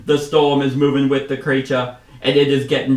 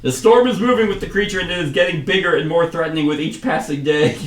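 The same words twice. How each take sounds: First: Put-on inconsistent accent, swapping Australian for British; loud, badly held British-Australian accent. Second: Higher, louder declaiming commander; commander retake. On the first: Commander warning hunters of the storm, slipping put-on accent. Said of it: "swapping from, like, Australian to British". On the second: Acted. Commander warning of the growing storm, high loud declaiming. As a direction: restart the speech high and emphatic. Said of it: "I can't keep a consistent accent".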